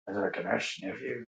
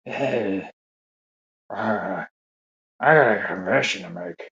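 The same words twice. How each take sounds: First: Much lower and far softer, breathy creep; a very hushed old-man voice, almost gone; creepier Biden whisper. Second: Put-on low, soft whispery old-man confession; a hint of a hushed old man, much softer; Biden whisper impression. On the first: Retold or imitated. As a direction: push the whisper into something creepy. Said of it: "make that voice a little more creepy". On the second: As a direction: lean in low and quiet like a creepy old politician. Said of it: "does he have that whisper?".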